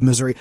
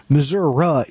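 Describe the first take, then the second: First: Said in the usual way. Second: Missouri ending in "uh"; local-style "uh" on the end of Missouri; regional pronunciation. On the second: Shown as a demonstration. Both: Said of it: "if you will".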